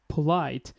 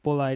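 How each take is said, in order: First: The first p has a puff of air. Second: The first p has no puff of air. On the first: The speaker calls it right. "it is starting with aspirated sound" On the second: The speaker calls it wrong. "lack of knowledge of aspirated sound"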